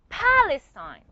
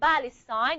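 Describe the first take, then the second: First: The word begins with a breathy p sound. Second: The word begins with a voiced b sound. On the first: The speaker calls it right. "You're from Palestine. ... a puff of air coming out of your mouth" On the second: The speaker calls it wrong. "You're not from Palestine"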